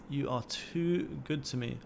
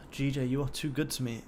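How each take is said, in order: First: Slower and softer, drawn out lovingly; savouring. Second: Said in the usual way. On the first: Real, not acted. Streamer cooing to his winning trade, slow soft savouring. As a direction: linger on each word like a fond thank-you.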